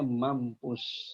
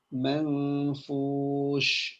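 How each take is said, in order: First: A clear M then a P sound in the middle. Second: A faint nasal then an F sound in the middle. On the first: The speaker calls it wrong. "ini ayat dibacanya mampus" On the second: The speaker calls it right. "Padahal maksudnya adalah manfush"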